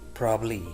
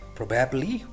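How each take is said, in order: First: A middle sound is dropped from the word. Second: Every sound in the word is said.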